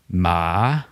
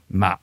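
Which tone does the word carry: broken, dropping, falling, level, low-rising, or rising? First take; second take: low-rising; dropping. First: The word is said on a dipping-rising tone. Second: The word is said on a heavy dropping tone. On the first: The word means grave. "Det betyr grav" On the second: The word means rice seedling. "som betyr en liten risplante"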